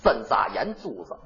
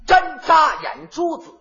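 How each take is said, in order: First: "针扎眼珠子" low and slurred in Tianjin dialect; Tianjin accent. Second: "针扎眼珠子" in clear standard Mandarin, slow and higher. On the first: Imitating Tianjin speech for his partner, low and slurred. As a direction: mumble "针扎眼珠子" the Tianjin way, lower. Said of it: "您给学学". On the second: Showing his partner how Putonghua says it, slow and clear. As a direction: say "针扎眼珠子" crisply in Putonghua, word by word. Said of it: "普通话一说很清楚". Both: Shown as a demonstration.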